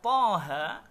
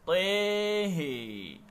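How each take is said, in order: First: Both vowels are read with an open a. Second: Both vowels are read with a fronted e.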